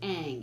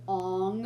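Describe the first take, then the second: First: The vowel sounds like the one in cat. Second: The vowel sounds like the one in on. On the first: This is the character's real name. The speaker calls it right. "the one of the kids' name is Aang" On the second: Someone else said the name this way. The speaker calls it wrong. "he didn't even pronounce the characters' names right"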